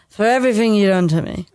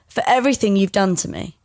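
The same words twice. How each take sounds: First: The words are slurred together in one breath. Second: The words are said a bit more clearly.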